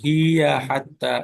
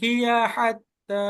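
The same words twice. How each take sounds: First: The vowel after 'hi' is lengthened. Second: The vowel after 'hi' is kept short. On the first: The speaker calls it wrong. "একটু মাদ হয়ে যায়" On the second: The speaker calls it right. "এটা একেবারে খাটো হবে"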